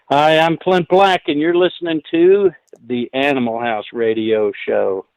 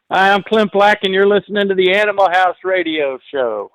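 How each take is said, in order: First: Station ID, starting raised then settling to usual pitch; radio liner that relaxes and drops after the name. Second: High-pitched, punchy radio liner held up to the end; upbeat station ID. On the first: Guest recording a station ID for the radio host, measured first take. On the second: Guest giving the host one more station ID, upbeat and high. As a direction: announce the show with lifted, energetic pitch. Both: Shown as a demonstration. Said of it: "put the emphasis on the right syllable".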